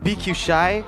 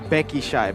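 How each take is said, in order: First: The first part is two English letter names. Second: The first part sounds like the word Becky. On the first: This is the local way of saying the name. The speaker calls it right. "the way we pronounce B Q Shy" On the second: This is how the letters are read in Indonesia. The speaker calls it wrong. "the Indonesians say Becky Shy"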